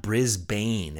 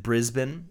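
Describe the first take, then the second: First: Brisbane with a full "bane" ending; American mispronunciation. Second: Brisbane with a short, reduced ending, BRIZ-bun; local pronunciation. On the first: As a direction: say Brisbane as "BRIZ-BAYN", drawing out the second syllable. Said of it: "that sounds so American". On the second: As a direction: say Brisbane as "BRIZ-bn", swallowing the second vowel. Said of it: "that's how you pronounce it". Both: Shown as a demonstration.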